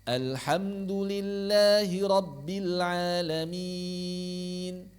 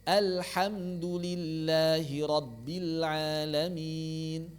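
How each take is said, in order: The two takes are said the same way.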